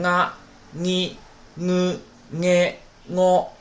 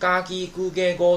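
First: The syllables begin with a nasal ng sound. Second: The syllables begin with a plain hard g. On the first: "前面你都加一个这个鼻音" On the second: "浊音"

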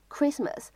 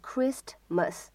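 First: The t sound is not released. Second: The t sound is fully released. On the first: The speaker calls it right. "它当中呢本身就包含了一个不完全爆破" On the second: The speaker calls it wrong. "没有必要读成Christmas"

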